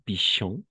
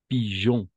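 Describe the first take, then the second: First: The middle consonant is a voiceless 'sh' sound. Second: The middle consonant is a soft voiced 'j' sound. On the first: The speaker calls it wrong. "et non pichon" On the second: The speaker calls it right. "comme pigeon"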